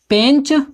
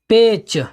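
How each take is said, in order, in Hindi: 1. स्वर अनुनासिकीकरण के साथ बोला जाता है। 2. स्वर बिना अनुनासिकीकरण के बोला जाता है। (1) "भोजपुरी में कहेंगे" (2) "हिंदी में कहते हैं"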